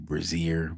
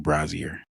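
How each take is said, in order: First: The name begins like the word Brazil. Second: The name does not begin like Brazil. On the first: Some other people say it this way. The speaker calls it wrong. "Some people would probably say Brazier, which is crazy, like Brazil" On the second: This is how the speaker himself says it. The speaker calls it right. "I would say Brazier"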